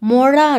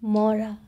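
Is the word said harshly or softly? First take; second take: harshly; softly. First: The word is said hard and plainly. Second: The word is said gently and softly. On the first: The speaker calls it wrong. "মরা নয়" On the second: The speaker calls it right. "নরম করে"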